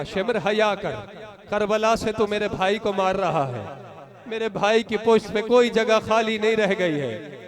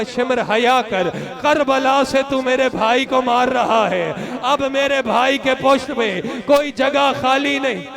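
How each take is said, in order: First: Hushed tearful plea. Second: Slow, tearful plea of a little sister; weeping girl's plea. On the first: Preacher retells the sister's plea to mourners, hushed. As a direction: let the plea sink to a grieving hush. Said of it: "मेरी बहन ने कहा". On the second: Little sister begging the tormentor, slow and tearful. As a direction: beg him to stop, half in tears. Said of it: "एक मरतबा रो के कहा". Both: Acted.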